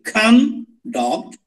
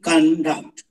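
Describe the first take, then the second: First: The stress is on the first syllable. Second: The stress is on the second syllable. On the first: It is used as a noun. "If it is noun, the stress is on the first syllable" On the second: It is used as a verb. "If we change the stress to the second syllable, it becomes verb conduct"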